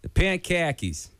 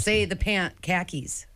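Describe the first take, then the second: First: Higher, slow Boston "pant khakis"; repeating in a Boston accent. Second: Boston "pant khakis" with no r, slowly; slow Boston demo of "pant khakis"; Boston accent demo. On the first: Acted. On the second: Shown as a demonstration.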